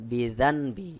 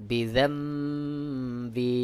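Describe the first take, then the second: First: Said in the usual way. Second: বিজাম্বি with the nun turned to m, nasal hum held; correct iqlab reading. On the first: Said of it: "এখানে রয়েছে". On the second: Shown as a demonstration. Teacher showing students the correct iqlab pronunciation. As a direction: say বিজাম্বি, not বিজানবি, slowly. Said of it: "সহি উচ্চারণ হবে বিজাম্বি".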